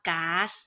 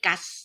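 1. สระเป็นเสียงยาว 2. สระเป็นเสียงสั้น (1) "ออกว่าก๊าซนะคะ" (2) "ไม่กัสนะคะ"

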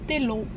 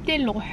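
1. De eerste klinker klinkt als 'i'. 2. De eerste klinker klinkt als 'i'.

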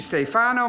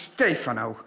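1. De klemtoon ligt op de tweede lettergreep. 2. De klemtoon ligt op de eerste lettergreep. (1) "Het is niet Stefano" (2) "maar het is Stefano. De nadruk op de E"

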